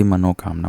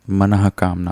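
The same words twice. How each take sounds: First: मनोकामना with "mano" before "kaamna"; wrong form. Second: मनः कामना with a breathed "h" after "mana"; correct form. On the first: Teacher warning of a common error, मनोकामना with "no". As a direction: use an o vowel in मनोकामना, no h. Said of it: "ना कि मनोकामना". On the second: Teacher giving the correct word, मनः कामना with "manah". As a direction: slowly sound the visarga in मनः कामना. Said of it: "मनः कामना होता है". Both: Shown as a demonstration.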